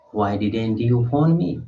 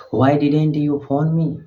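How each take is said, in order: First: Phone stressed, rising at the end; rising question. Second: Didn't stressed, falling at the end. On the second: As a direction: hit didn't and let the question fall. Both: Shown as a demonstration.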